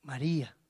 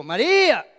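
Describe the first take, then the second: First: Softer and lower, gentle naming; tender call. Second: Louder, abrupt naming; harsh call. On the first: The risen Lord gently calling Mary by name. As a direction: breathe her name lovingly. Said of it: "El Señor le dijo". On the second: The Lord at the tomb, shown the wrong way: abrupt and harsh. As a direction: bark the name out. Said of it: "El Señor no le dijo". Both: Shown as a demonstration.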